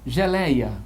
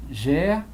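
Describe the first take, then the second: First: Said in the usual way. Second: Geleia broken up as ge-lei-a; teacher separating syllables; split into syllables. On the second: Shown as a demonstration.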